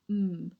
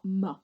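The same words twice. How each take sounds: First: The consonant is said alone, with no vowel. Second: A short vowel is added after the consonant. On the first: The speaker calls it right. "we must say the pure sounds" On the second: The speaker calls it wrong. "it's not M"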